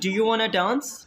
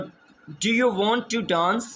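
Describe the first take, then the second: First: The words 'want to' are reduced to 'wanna'. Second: The words 'want to' are said in full. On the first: "आप wanna use कर सकते हैं" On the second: "want to की जगह"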